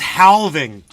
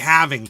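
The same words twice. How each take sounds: First: The L sound is pronounced in the word. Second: The L sound is silent in the word. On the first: Someone else said it this way. The speaker calls it wrong. "he says halving" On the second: This is how everyone says it. The speaker calls it right. "you've heard everyone in your lifetime say halving"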